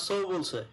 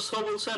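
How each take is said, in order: First: সো with a clear English O sound; O vowel pronunciation. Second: সো with the plain Bengali vowel, no glide; local plain vowel. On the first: Teacher offering the newsreader's version, সো with an O sound. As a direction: say সো with ও, unlike the local vowel. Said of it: "ওটা ও উচ্চারণ হবে". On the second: Teacher quizzing students on local pronunciation, সো with a plain vowel. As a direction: say সো the everyday Bengali way. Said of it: "আমাদের মতো সো বলছে". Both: Shown as a demonstration.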